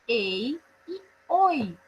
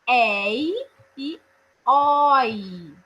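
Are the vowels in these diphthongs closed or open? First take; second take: closed; open. First: The diphthongs are said with closed vowels. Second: The diphthongs are said with open vowels. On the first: "vocês leram aqui perfeitamente" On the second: "eles são abertos, então eu vou ler eles"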